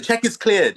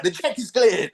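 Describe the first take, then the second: First: Proud announcement. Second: P=A; cheering. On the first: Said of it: "he'd say". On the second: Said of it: "we'd be like". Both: Retold or imitated.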